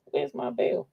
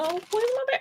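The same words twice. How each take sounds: First: Said in the usual way. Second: Playfully panicked ask; high-pitched mock worry; high fretful repeat. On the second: Real, not acted. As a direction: squeak it up, worried.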